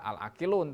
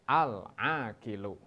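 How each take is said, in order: First: The word ends with a final n sound. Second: The word ends on a vowel without n. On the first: The speaker calls it wrong. "tidak usah dibaca al-akilun" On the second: The speaker calls it right. "tetapi al-akilu"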